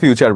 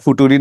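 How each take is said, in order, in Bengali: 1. মাঝের ব্যঞ্জনধ্বনিটি ch ধ্বনি। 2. মাঝের ব্যঞ্জনধ্বনিটি সাধারণ t ধ্বনি। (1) "ফিউচার বলতে হয়" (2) "ফুটুরি না বলে"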